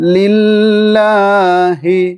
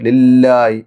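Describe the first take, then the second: First: The h sound is said clearly and carefully. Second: The h sound is dropped, said quickly. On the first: The speaker calls it right. "ഹ ശ്രദ്ധയോടുകൂടി" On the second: The speaker calls it wrong. "ലില്ലായി എന്നൊക്കെ ചിലർ ഓതാറുണ്ട് ലില്ലായി അത് വലിയ തെറ്റാണ്"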